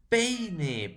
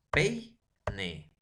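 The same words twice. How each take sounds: First: Said in the usual way. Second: "Peine" as pei... ne, with a gap; split into syllables. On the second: Shown as a demonstration. Teacher shows the vowels stay joined, "Peine" syllable by syllable. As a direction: say "Peine" in two separate beats, ei kept together. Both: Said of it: "nunca se van a separar".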